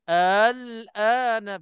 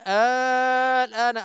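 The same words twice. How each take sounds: First: The opening vowel is short with a softened hamza. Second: The opening vowel is drawn out long. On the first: "bila tashil pun memberi makna tanda tanya juga" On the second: "Kita nak kena panjang"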